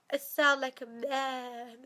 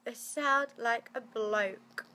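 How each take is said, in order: First: Blocked nose. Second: Slow, stuffed-up voice; blocked-up nasal voice. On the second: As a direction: let the blocked nose carry it. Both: Real, not acted. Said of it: "can you hear how blocked I am".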